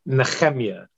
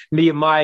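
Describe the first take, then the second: First: Nehemiah said the Hebrew way, ne-CHEM-ya, with a throaty ch; Hebrew pronunciation. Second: Nehemiah said the English way, nee-uh-MY, no ch sound; English pronunciation. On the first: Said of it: "that chet sound in Hebrew". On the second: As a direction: Nehemiah in plain English, knee-uh-my, ending on a long my. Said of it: "is easier to say than". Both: Shown as a demonstration.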